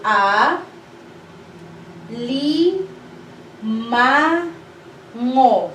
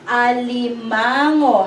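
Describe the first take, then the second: First: A, li, ma, ngo spaced out and clear; syllable by syllable. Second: Alimango as one flowing word, a-li-MA-ngo; whole word. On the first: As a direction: count out the syllables of Alimango. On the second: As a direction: blend it into Alimango. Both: Shown as a demonstration. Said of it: "this is a long word".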